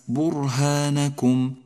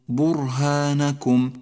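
Both takes have the same delivery.

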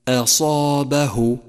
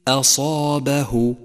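The two takes are said the same way.

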